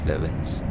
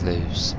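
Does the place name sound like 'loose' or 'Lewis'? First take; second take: Lewis; loose. First: It is two syllables, like 'Lewis'. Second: It is one syllable, like 'loose'. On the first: "As a local, it is, it is Lewis" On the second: "I pronounce it as loose"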